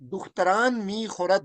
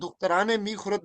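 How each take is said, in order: First: No vowel is added between dukhtaran and mi. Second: An extra e vowel links dukhtaran to mi. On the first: The speaker calls it right. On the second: The speaker calls it wrong.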